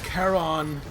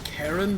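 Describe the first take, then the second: First: It sounds like the mythological ferryman's name. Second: It sounds like the common given name. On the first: It refers to the ferryman of the dead. "or as Charon the ferryman of the dead" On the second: It refers to an ordinary person's name. "pronounce it as Karen the name"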